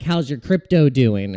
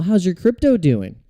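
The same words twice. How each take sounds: First: Lightly mocked condescending question; a hint of a relative talking down. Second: Higher, louder sing-song condescending question; smiling condescension. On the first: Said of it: "condescending smile, like". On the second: Retold or imitated. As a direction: ham up the smug relative asking about crypto. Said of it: "with the smile".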